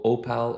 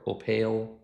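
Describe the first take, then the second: First: Opal as "oh-PAL"; trying a pronunciation. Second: Opal as "oh-PAIL"; alternative pronunciation. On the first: YouTuber first trying the tool's name, Opal said "oh-pal". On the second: YouTuber offering another way to say the name, Opal as "oh-pail". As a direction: say Opal with a long A, rhyming with pail. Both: Shown as a demonstration. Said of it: "however you wanna pronounce it".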